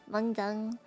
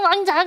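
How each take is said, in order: First: It is said plainly, without much expression. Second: It is said with a lot of expression.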